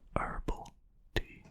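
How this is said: It is said in an American way.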